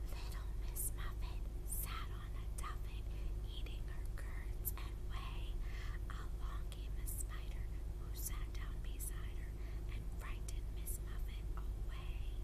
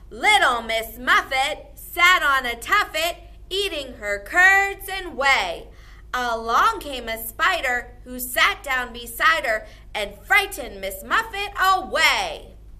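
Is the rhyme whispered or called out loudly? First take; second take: whispered; called out. First: The rhyme is whispered softly. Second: The rhyme is called out loudly.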